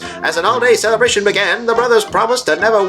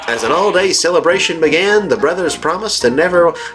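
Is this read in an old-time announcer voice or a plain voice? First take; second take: announcer voice; plain voice. First: It is read in an old-time announcer voice. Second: It is read in the speaker's ordinary voice.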